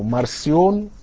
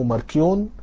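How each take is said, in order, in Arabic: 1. الحرف الساكن في النص صوت s. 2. الحرف الساكن في النص صوت k. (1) "في ناس بتنطق اسمه مارسيون" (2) "وفي ناس بتنطق اسمه ماركيون"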